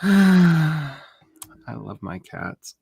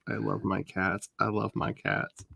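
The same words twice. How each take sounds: First: Slow, high, dreamy sigh; slow adoring sigh. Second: Soft repeat. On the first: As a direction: melt over your cats. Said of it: "sighs, repeats". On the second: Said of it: "repeated softly". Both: Real, not acted.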